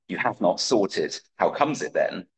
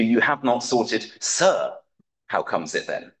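First: Said in the usual way. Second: "sir" slipped into the line as a courtly filler; sir inserted. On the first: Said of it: "Pope changes a line from one Henry four". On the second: Shown as a demonstration. Lecturer quoting Pope's amended line, with "sir" added. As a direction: read the line with "sir" added, lightly stressed.

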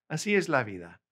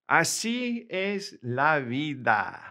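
First: Said in the usual way. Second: Slow clear model. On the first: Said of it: "teacher repeats phrase normally". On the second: Shown as a demonstration. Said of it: "teacher models phrase slowly".

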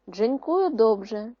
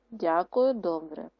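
First: «Дзенькую добре» slow and louder; Polish phrase. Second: Said in the usual way. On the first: Shown as a demonstration. Teacher reading the Polish line before the Ukrainian. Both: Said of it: "замінивши польські слова українськими".

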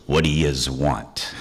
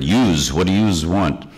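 First: Gruff New York "yez" dragged out slowly; mild New York tough-guy imitation; New York accent. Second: New York "yous" said twice, echoing the voice at the door; light New York imitation; New York accent. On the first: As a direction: growl it like a doorman behind a chained door. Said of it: "I hear this voice go". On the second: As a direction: mimic the Brooklyn "yous". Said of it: "I had heard".

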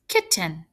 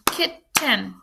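First: Said in the usual way. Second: "Kitten" counted out as kit, ten; "Kitten" in two separate beats; split into syllables. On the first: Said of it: "we have two syllables". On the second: Shown as a demonstration. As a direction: break "Kitten" in two, full vowel in ten. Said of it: "Count 'em".

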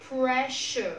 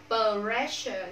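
First: "pressure" with p released straight into r; clean pr cluster. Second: "pressure" with an extra vowel between p and r; wrong split p-r. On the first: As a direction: pop the p in "pressure" with no vowel after it. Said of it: "Bạn bật đúng âm đấy ra thôi". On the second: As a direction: mispronounce "pressure" as puh-RE-sher. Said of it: "Không đọc là pressure". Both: Shown as a demonstration.

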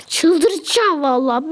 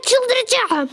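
First: Slow, drawn-out çıldıracağım with the stress on it; weary, dragged-out complaint; slow exasperation. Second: High, exasperated I'm going crazy; half-laughing frustration; exasperated cry. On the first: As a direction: stretch out çıldıracağım wearily. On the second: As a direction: blurt it out, pitched up in frustration. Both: Real, not acted.

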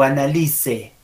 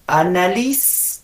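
First: "Annalise" ending in a sounded E, falling; second option. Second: "Annalise" without final E, slow and rising; slow questioning "Annalis"; pronunciation option. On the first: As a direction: say it "ana-LI-se". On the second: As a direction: stop Annalise on a long S. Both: Shown as a demonstration. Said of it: "¿Cómo es?".

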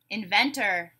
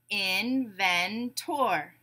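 First: Said in the usual way. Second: "Inventor" very slowly, in-ven-tor with a full "tor"; syllable by syllable. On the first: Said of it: "I'll say a word". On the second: Shown as a demonstration. Teacher breaking a word into syllables, beat by beat. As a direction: separate the three beats of "Inventor". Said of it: "we'll break it into syllables".

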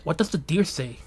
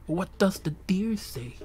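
First: Said in the usual way. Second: Slow "What does the deer say", raised in pitch; drawn-out question. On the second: Acted. Streamer wondering about deer noises, slow musing question. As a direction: stretch "does the deer say" slowly and higher.

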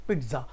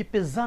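First: पिज्जा with a light t, pitza; पिज्जा as peet-za; correct pizza. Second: पिज्जा said as piza with no t; पिज्जा the wrong way, plain z; पिज्जा without the t sound; wrong pizza. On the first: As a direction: say पिज्जा with a soft t in the middle. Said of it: "टा का हल्का सा sound आएगा". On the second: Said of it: "ये पिज्जा नहीं होता". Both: Shown as a demonstration.

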